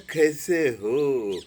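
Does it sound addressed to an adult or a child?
child. It is said affectionately, as to a child.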